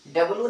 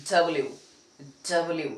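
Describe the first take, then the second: First: डब्ल्यू said as "dablu"; the wrong डब्ल्यू; डब्ल्यू as learners say it. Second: डब्ल्यू said as "double-u"; teacher's डब्ल्यू; right way. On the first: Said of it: "डब्ल्यू नहीं". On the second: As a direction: model डब्ल्यू with a falling tune. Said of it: "इसको डब्ल्यू बोलेंगे". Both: Shown as a demonstration.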